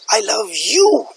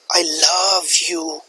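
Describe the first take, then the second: First: The stress falls on the word you. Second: The stress falls on the word love. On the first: It shows regret for loving this particular person. "The stress is on the word you" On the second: It shows the depth of feeling. "The stress is on the word love"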